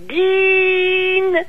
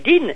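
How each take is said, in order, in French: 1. La voyelle est prononcée longue. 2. La voyelle est prononcée brève. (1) "j'ai dit din. Donc, il faut, pour rendre ce son li allongé, cette voyelle longue" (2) "j'ai pas dit din"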